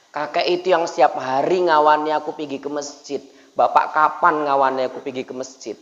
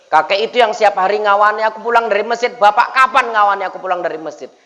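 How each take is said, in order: First: Low-pitched, restrained reproach. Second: Raised, more forceful reproach; child's insistent protest. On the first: Son reproaching father about going to the mosque, subdued. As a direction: ask it as a subdued, hurt child. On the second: Son confronting father about coming home from mosque, insistent. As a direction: press the accusation home as the child. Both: Acted. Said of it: "sebelum anak protes".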